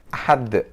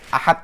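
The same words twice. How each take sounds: First: The final consonant ends with an echoing bounce. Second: The final consonant stops flat with no echo. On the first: The speaker calls it right. "tapi harus ada pantulannya" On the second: The speaker calls it wrong. "Jadi bacanya nggak boleh Ahad aja"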